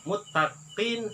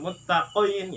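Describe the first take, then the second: First: The q sound is made only lightly. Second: The q sound is made too heavily. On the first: The speaker calls it right. "sedikit aja" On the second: The speaker calls it wrong. "jangan muttaqin ya. Muttaqin itu terlalu berlebihan"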